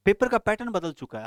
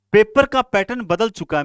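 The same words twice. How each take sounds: First: Said in the usual way. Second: Forceful, raised declaration; emphatic loud. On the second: Real, not acted. Teacher warning students, loud and emphatic. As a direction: hammer the warning home to students.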